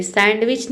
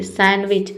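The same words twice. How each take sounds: First: सैंडविच with a clear D, "sand-wich"; D sounded. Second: सैंडविच with no D, "san-wich"; silent D. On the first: Teacher shows the form to avoid, सैंडविच with sounded D. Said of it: "नहीं बोलते". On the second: Teacher models English pronunciation, सैंडविच with silent D. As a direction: drop the D in सैंडविच. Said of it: "English में pronunciation होती है". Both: Shown as a demonstration.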